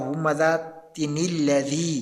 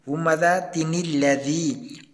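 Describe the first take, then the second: First: The words run together through a linking 'ni' sound. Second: The same.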